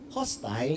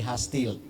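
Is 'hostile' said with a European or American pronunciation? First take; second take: European; American. First: It is said with a European pronunciation. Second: It is said with an American pronunciation.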